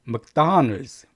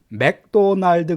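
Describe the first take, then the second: First: The first syllable sounds like 'muck', second stressed. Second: The first syllable sounds like 'mac', evenly stressed. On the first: The speaker calls it right. "이게 맥보다는 묵에 가까워요" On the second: The speaker calls it wrong. "맥도날드 그러시면 안 돼요"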